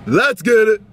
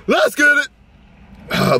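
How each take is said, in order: First: Said in the usual way. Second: High cracking voice. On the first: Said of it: "Yeah, that's way better". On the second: Real, not acted. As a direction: voice breaks up high and slow. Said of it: "Voice cracked".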